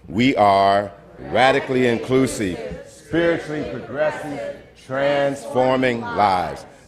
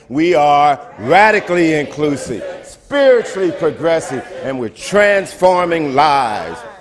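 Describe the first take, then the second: First: It is said with ordinary, lower energy. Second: It is said with more energy.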